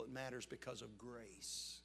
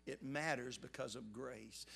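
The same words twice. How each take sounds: First: Said in the usual way. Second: "It matters because of grace" said slowly, each word weighted; slow, deliberate, weighty repeat; slow emphatic restatement. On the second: Shown as a demonstration. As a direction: lean on "matters" and draw the line out. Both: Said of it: "repeats the line".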